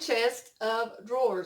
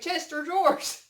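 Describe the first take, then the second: First: The first part is said as 'chest of'. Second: The first part is said as 'Chester'. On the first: "I don't say chest of drawers" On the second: "I say Chester drawers. Like somebody's name Chester"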